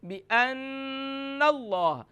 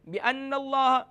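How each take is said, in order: First: The nasal sound is held through the nose. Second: The nasal sound is short without nasal hold. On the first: The speaker calls it right. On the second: The speaker calls it wrong.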